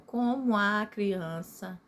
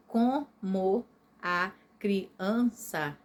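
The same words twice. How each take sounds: First: COMO A CRIANÇA with COMO A glided into co-mua; slow, connected COMO A CRIANÇA, no break before A; vowels run together. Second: COMO A CRIANÇA in separate beats, co, mo, a, cri, an, ça; very slow, every syllable of COMO A CRIANÇA apart. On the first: Teacher saying listen to the sound, COMO A joined in the verse. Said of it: "olha o som". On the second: Teacher before joining them, COMO A CRIANÇA split into syllables. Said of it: "eu juntei". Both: Shown as a demonstration.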